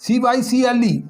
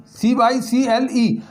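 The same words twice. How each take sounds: First: Said in the usual way. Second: Each letter said slowly and clearly; slow spelling. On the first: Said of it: "spelling out cycle". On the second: Shown as a demonstration. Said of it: "spelling out cycle again".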